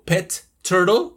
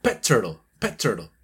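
First: "pet turtle" with both Ts released separately; repeated T. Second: "pet turtle" linked on one T, lower; joined T. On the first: Teacher showing the unlinked way, T said twice. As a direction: finish PET's T, then start TURTLE afresh. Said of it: "o sea, repito el t". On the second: Teacher showing how she joins words, linked T. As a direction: hold back PET's T and release into TURTLE. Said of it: "No, lo uno". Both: Shown as a demonstration.

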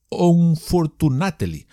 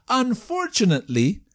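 First: "unfortunately" read as written, onfor-tu-na-te-ly, slowly; spelled-out pronunciation. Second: "Unfortunately" said as an-for-chu-nat-li, higher; correct pronunciation. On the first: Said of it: "que se escribe". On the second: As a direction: give the proper English "Unfortunately". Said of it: "es difícil de pronunciar". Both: Shown as a demonstration.

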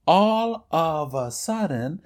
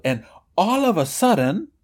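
First: All of a sudden drawn out slowly. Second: Said in the usual way. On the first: Shown as a demonstration. Teacher repeats all of a sudden slowly for the students. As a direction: stretch out all of a sudden for the class to follow. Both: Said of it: "y hago una pausa".

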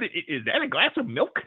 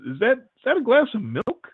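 First: Laughing through a mimicked copy of the question; the waiter mocking how the guest said it, through laughter; mocking imitation, laughing. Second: A startled, puzzled blurt, rising high at the end; retelling his own baffled blurt at the waiter; blurted question. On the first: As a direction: parrot the question back while cracking up. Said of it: "start laughing and go". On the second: Retold or imitated. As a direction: ask it like something can't be right on the tray. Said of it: "I just kind of blurted out".

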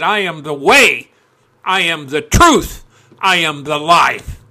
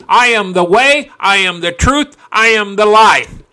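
First: Said in the usual way. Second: Loud, forceful proclamation, each line punched; with full heart. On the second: Shown as a demonstration. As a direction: throw your teeth and your heart into it. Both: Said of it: "You put your teeth and your heart into that".

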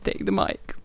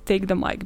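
First: Whispered aside; unvoiced hushed repeat of "Take the mic". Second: Said in the usual way. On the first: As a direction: breathe it out as a playful whisper. Repeat after insult.

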